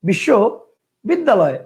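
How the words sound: The word is broken into two separate parts. "দুইটা"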